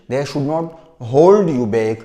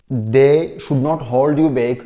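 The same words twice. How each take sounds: The two takes are said the same way.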